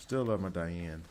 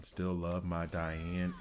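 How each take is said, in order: First: Southern accent. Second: Slow, drawn-out Southern drawl repeating the line; mocking own Southern accent, slow; exaggerated Southern accent. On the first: Real, not acted. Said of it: "the most Southern I've sounded". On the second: Shown as a demonstration. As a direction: stretch each word in a Southern accent. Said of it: "is so Southern".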